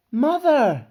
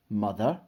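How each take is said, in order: First: High, loud cry across a crowd; calling out. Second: Puzzled echo with rising end; amazed question. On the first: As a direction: call out for your mother. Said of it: "a voice called out from the crowd". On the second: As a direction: repeat it in disbelief, without shouting. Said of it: "Everybody stared in amazement". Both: A narrator's reading.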